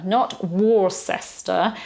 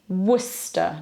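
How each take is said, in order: First: "Worcester" said WOR-ses-ter, slow; spelling reading. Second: "Worcester" said WUSS-ter; correct pronunciation. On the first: Teacher shows the wrong reading. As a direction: read "Worcester" letter by letter. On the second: Teacher names the city right. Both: Shown as a demonstration.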